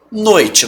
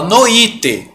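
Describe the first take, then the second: First: Said in the usual way. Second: Noite as "no-Í-te"; three syllables in noite, hit the Í; wrong stress on i. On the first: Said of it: "você fala noite". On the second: Shown as a demonstration. Teacher correcting Juliana, noite wrongly said no-Í-te. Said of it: "Você não fala noite".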